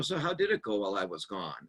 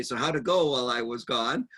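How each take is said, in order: First: Softer, lower gentle question; coming back in calmly after the blowup. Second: Said in the usual way. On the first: Shown as a demonstration. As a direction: ask it gently and kindly. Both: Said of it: "in a soft tone of voice".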